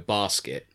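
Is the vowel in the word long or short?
short. The first vowel is short. "Someone from London or towards the east will go basket"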